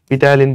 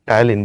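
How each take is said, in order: First: The word begins with a pronounced p sound. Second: The word begins with a t sound, no p. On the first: The speaker calls it wrong. "পিটায়ালিন বলো না" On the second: The speaker calls it right. "টায়ালিন বলে"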